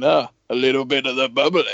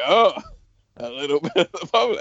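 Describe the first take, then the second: First: A hint of a hammed-up English rock-star toast; mild mock grand announcement. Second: Lightly imitating a fake English accent, fast; quick hammed-up English toast; mock English accent. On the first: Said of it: "Why does he say it like that?". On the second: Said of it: "trying to go for an English accent".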